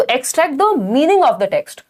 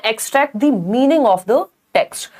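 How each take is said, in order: First: Slow, careful read of the answer; rereading the answer. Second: Slow, careful option read; reading the option aloud. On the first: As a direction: linger on each word of the answer. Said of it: "हाँ, तो". (उत्तर धीरे से दोहराना) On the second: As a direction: spell out the option slowly. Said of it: "C option है". (धीमे से विकल्प पढ़ना) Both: Shown as a demonstration.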